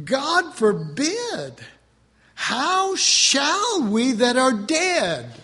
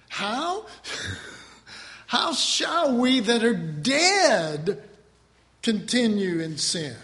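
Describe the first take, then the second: First: Slow, drawn-out, emphatic reading; dramatic scripture reading. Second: Very slow, each word weighed; slow verse rereading. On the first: Preacher reading Romans to the congregation, slow and drawn out. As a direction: stretch each word for weight. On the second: Preacher repeating the verse to the congregation, very slow. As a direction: linger on dead. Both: Acted.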